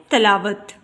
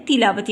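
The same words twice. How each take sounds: First: "تلاوت" as talawat, opening ta; wrong pronunciation. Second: "تلاوت" as tilawat, opening ti; correct pronunciation. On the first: Teacher shows students the faulty reading, "تلاوت" said as ta-la-wat. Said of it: "یہ غلط تلفظ ہے". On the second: Teacher gives students the correct reading, "تلاوت" said as ti-la-wat. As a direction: say "تلاوت" with zer under the te: ti-la-wat. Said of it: "تے کے نیچے زیر". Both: Shown as a demonstration.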